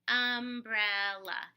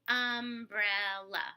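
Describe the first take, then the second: No difference in how they are said.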